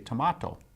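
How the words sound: The word is said in a South African accent. "the South African English would say"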